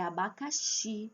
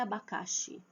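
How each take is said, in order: First: "abacaxi" with a strong, held final XI; stress on last syllable. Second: "abacaxi" with stress moved back to CA, final xi weak; wrong stress on penult. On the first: Teacher corrects the mistake, "abacaxi" stressed on final XI. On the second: Teacher shows the mistake, "abacaxi" stressed on CA. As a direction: say "abacaxi" as a-ba-CA-xi, dropping the ending. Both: Shown as a demonstration. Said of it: "Não é abacaxi".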